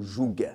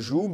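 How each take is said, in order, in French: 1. Le mot se termine avec un son g. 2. Le mot se termine sans son g. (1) "c'est vrai qu'il y a un G, certains prononcent le joug" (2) "On dit un joug"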